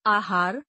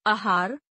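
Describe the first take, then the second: First: Said in the usual way. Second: आहार starting on short uh, "ahaar"; mispronounced. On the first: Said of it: "शुद्ध". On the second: Shown as a demonstration. Teacher showing a vowel error, mispronounced with short first a. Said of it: "अशुद्ध".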